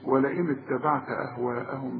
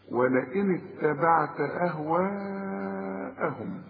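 First: The vowel before the hamza is cut short. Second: The vowel before the hamza is held long. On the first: The speaker calls it wrong. "ما تقولش" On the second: The speaker calls it right. "لا"

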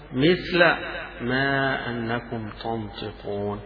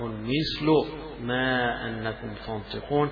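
First: The word mithl ends with an a vowel. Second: The word mithl ends with a u vowel. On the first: The phrase describes the state of the pronoun before it. "فجاءت قراءة الجمهور بذلك بالنصب فيها" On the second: The phrase describes the word truth. "كأنه وصف للحق الذي من عند الله سبحانه"

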